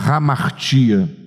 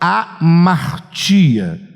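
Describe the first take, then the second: First: The word begins with a breathy h sound. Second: The word begins directly with a vowel.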